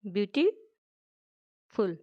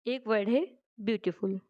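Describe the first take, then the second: First: beautiful stretched very slowly, each part drawn out; slow, drawn-out word. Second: Said in the usual way. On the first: Shown as a demonstration. Teacher showing students the word parts, beautiful said very slowly. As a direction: draw out beautiful slowly for the class. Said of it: "जिनको break किया जा सकता". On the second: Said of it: "जैसे कि एक word है beautiful".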